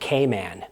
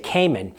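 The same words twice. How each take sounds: First: The stress is on the second syllable. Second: The stress is on the first syllable. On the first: This is how locals in the islands say it. "their emphasis being on the word man" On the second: This is how North Americans say it. "We say Cayman"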